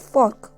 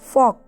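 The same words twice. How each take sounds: First: The r sound is pronounced. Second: The r sound is silent. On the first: "American language में इसे आर को silent नहीं रखा जाता है" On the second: "लेकिन हम इसे बोलेंगे फॉक।"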